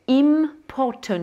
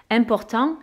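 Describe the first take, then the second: First: "important" slow and higher, English, with a long M; sounded English M. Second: Said in the usual way. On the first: Shown as a demonstration. (« important » en anglais, lentement, M bien prononcé) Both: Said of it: "ils vont prononcer ce N ou ce M".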